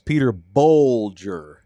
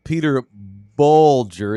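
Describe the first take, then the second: First: The surname's first vowel sounds like 'oh'. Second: The surname's first vowel sounds like 'uh'. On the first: The speaker calls it right. "It's Peter Bolger" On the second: The speaker calls it wrong. "It's not Peter Bulger"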